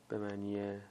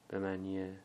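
The two takes are said the same way.

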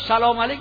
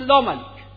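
First: The greeting is said in full. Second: The first syllable of the greeting is dropped.

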